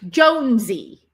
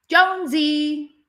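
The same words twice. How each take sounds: First: Jonesy called out, loud, with the final syllable sy hit hard; stress on last syllable. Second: Jonesy higher and louder, slow, the final sy cracked sharply; last syllable cracked out. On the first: Calling a dog named Jonesy, loud, stressing the last syllable. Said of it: "the last syllable is emphasized". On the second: Trainer calls Jonesy, cracking out the last syllable. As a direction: call Jonesy and crack the sy like a whip. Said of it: "the last syllable can be cracked out". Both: Shown as a demonstration.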